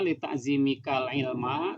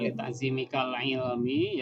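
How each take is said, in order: First: The last word ends in an 'a' vowel. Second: The last word ends in an 'i' vowel. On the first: The knowledge is the direct object of the honoring. The speaker calls it right. "Kenapa saya bacanya li ta'zimikal ilma" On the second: The knowledge is a genitive complement of the preceding word. The speaker calls it wrong. "tidak li ta'zimikal ilmi"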